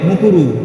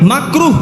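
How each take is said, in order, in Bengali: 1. প্রথম স্বরধ্বনিটি একটি গোলাকার 'u' ধ্বনি। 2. প্রথম স্বরধ্বনিটি একটি খোলা 'a' ধ্বনি। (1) "মুকুরু বলে। কি বলে?" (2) "সঠিক উচ্চারণ কি? মাকরু"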